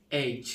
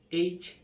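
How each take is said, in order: First: এইচ with an open first vowel; British-style letter H. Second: এইচ pitched higher, with a closer first vowel; England-style letter H. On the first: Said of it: "British উচ্চারণ". (British উচ্চারণে এইচ) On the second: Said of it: "এটা হলো England উচ্চারণ". (ইংল্যান্ডের উচ্চারণে এইচ) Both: Shown as a demonstration.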